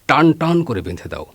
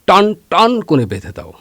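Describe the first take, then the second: First: The phrase is said with ordinary tension. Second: The words are said with more tension and stretch. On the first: The rope is tied tight. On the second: The rope is tied even tighter.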